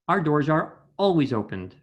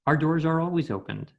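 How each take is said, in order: First: Glottal stops break the words before vowels. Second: The words flow together without breaks before vowels. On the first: The speaker calls it wrong. "another example would be" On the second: The speaker calls it right. "connect your words together. So you would say"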